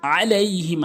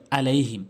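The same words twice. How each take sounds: First: আলাইহিম opening on a mid-throat ayn; correct, with ayn. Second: আলাইহিম opening on a plain a; wrong, ayn dropped. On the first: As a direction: squeeze the first vowel of আলাইহিম in the throat. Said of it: "আইনের উচ্চারণ করতে হবে". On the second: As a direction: say আলাইহিম with no throat squeeze. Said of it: "অনেকে এই ভুল বলে আলাইহিম". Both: Shown as a demonstration.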